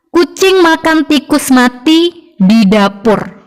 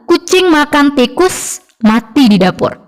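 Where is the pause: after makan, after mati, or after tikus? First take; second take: after mati; after tikus. First: There is a pause after mati. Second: There is a pause after tikus.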